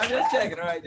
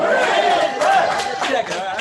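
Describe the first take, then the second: First: Said in the usual way. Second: "I'm just checking" drawn out slow, much higher and louder; teasing check. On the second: Pretend. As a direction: stretch out "I'm just checking" in a big teasing sing-song. Teasing crowd for weak response.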